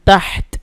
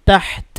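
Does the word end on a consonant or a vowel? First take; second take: consonant; consonant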